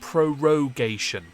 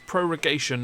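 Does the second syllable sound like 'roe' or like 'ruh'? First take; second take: roe; ruh. First: The second syllable has a full 'roe' vowel. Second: The second syllable has a reduced 'ruh' vowel. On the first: The speaker calls it wrong. "not prorogation. It's not pro ro row your bucket" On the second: The speaker calls it right. "It's prorogation"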